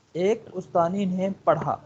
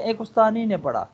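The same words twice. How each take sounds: First: Slow, spaced ایک استانی نے پڑھا for the student; slow repeat. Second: Said in the usual way. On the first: Shown as a demonstration. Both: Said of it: "اب دیکھیں".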